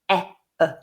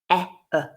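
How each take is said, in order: No difference in how they are said.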